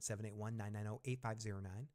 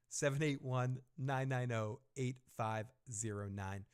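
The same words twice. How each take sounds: First: The number is read at a quick pace. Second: The number is read at a slow pace. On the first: The speaker calls it wrong. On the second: The speaker calls it right.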